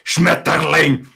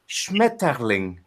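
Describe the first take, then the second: First: It is said harshly with a hard T. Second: It is said softly with a flowing T.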